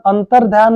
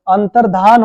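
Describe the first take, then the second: First: अंतर्ध्यान with a y after the aspirated dh, an-tar-dhyaan; the wrong अंतर्ध्यान, with dhya; wrong form. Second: अंतर्धान with a plain dh and no y, an-tar-dhaan; the correct अंतर्धान, with a plain dhaan; correct form. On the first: Teacher pointing out the wrong अंतर्ध्यान. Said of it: "अंतर्ध्यान नहीं". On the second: Teacher giving the right form, अंतर्धान. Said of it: "अंतर्धान होता है". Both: Shown as a demonstration.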